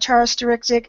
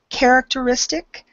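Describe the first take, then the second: First: The word begins with a CH sound. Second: The word begins with a hard K sound. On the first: The speaker calls it wrong. "instead of uh" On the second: The speaker calls it right. "it's a K sound"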